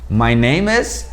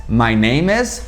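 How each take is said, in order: The two takes are said the same way.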